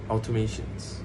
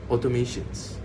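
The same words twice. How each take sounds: Both takes have the same delivery.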